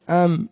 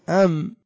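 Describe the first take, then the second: First: The word ends with a nasal m sound. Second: The word ends with a nasal m sound.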